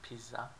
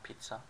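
First: It is said with a Turkish pronunciation. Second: It is said with an English pronunciation. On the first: The speaker calls it right. "In Turkish, we pronounce it pizza" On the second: The speaker calls it wrong. "not pizza"

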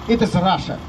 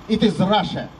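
First: It is said in a condescending, pitying tone. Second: It is said in a respectful, proud tone. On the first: Russians are seen as wild and uncivilized. The speaker calls it wrong. "Снисходительно так, извиняюще" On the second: Russians are admired as brave and just. The speaker calls it right. "С уважением, с гордостью"

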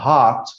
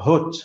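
First: The vowel is open, American style. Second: The vowel is rounded, British style. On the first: "وتبقى هات في الامريكان" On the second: "بتبقى هوت في البريتش"

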